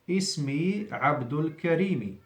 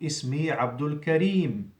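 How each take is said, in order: First: The name ends with a short 'i' vowel. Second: The name ends on the 'm' sound. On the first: "the meme has a kasra" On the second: "when you stop at the end of the sentence"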